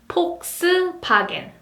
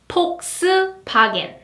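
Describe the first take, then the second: First: It is said with Korean P and B sounds. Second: The same.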